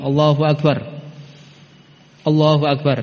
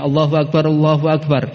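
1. Ada jeda di antara dua frasa itu. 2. Dua frasa itu tersambung tanpa berhenti. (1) "bukan Allahu Akbar. Allahu Akbar, nah, berhenti kan?" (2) "Bersambung sehingga dikatakan ganjil"

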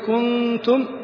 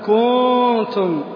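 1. الحركة التي قبل النون تبقى قصيرة. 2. الحركة التي قبل النون تُمَدّ طويلة.

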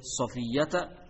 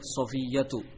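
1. Nama itu berakhir dengan vokal a. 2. Nama itu berakhir dengan vokal u. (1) "boleh Safiyyata" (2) "boleh Safiyyatu"

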